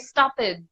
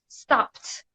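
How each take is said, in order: First: The ending is an extra syllable, like 'it'. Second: The ending is a short t sound. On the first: The speaker calls it wrong. "because you're trying to say the D, um, but it but it's incorrect" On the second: The speaker calls it right. "It's voiceless, so we need the T"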